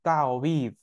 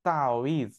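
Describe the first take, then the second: First: The middle consonant is a w sound. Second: The middle consonant is a w sound.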